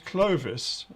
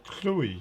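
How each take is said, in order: First: The middle consonant is a V sound. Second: The middle consonant is a U sound. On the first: The speaker calls it wrong. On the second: The speaker calls it right.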